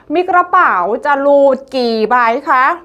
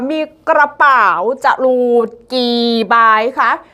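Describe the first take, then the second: First: The phrase is spoken at a moderate pace. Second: The phrase is spoken at a slow pace.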